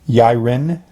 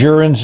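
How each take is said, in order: First: The name starts with a Y sound. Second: The name starts with a J sound. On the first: The speaker calls it right. "Yiren might be better" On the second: The speaker calls it wrong. "that probably is a bad pronunciation"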